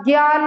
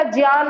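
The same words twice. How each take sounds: First: "ज्ञान" said as gyaan, hard g; common mispronunciation. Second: "ज्ञान" said as jyaan, with j; Sanskrit pronunciation. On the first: Teacher showing what is incorrect, "ज्ञान" as gyaan. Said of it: "ज्ञान नहीं होता". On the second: Teacher correcting students' gyaan, "ज्ञान" as jyaan. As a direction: open "ज्ञान" on j gliding into yaan. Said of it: "सही pronunciation संस्कृत में ज्ञा नहीं होता". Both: Shown as a demonstration.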